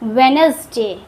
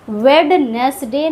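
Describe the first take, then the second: First: The d sound is silent. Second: The d sound is pronounced. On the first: The speaker calls it right. "इसको पढ़ते हैं हम लोग वेनसडे" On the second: The speaker calls it wrong. "वेडनेसडे नहीं पढ़ते हैं"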